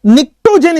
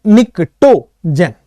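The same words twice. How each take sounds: First: Said in the usual way. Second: निक्टोजेन slow and low, broken into nik-to-jen with no P; silent P. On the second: Shown as a demonstration. Teacher showing students the silent P, निक्टोजेन said slowly in syllables. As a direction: sound out निक्टोजेन syllable by syllable, starting on N. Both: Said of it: "पी silent है".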